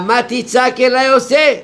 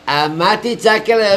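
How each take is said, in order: First: Higher and louder, rising on עושה; emphatic raised question. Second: Said in the usual way. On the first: Shown as a demonstration. God rebuking Moses for crying out, raised emphatic voice. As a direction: press the question hard, climbing up to עושה. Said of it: "אומר". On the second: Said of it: "אומר רבנו".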